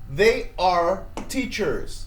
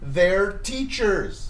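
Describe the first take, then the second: First: Both words 'they' and 'are' are said separately. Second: 'They' and 'are' merge into one syllable. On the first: "Full form"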